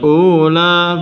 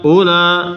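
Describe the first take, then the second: First: The first vowel is held long. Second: The first vowel is held short. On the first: The speaker calls it wrong. "bukan ula" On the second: The speaker calls it right. "Jadi dibaca pendek"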